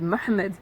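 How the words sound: The name is said with Arabic sounds. The speaker calls it right.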